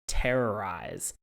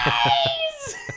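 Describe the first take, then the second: First: It is said in a plain normal voice. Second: It is said in a high screechy voice.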